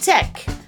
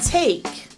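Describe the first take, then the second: First: The vowel is one steady eh sound. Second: The vowel glides from eh into a second sound. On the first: The speaker calls it wrong. "Not mek and tek" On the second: The speaker calls it right. "but make and take"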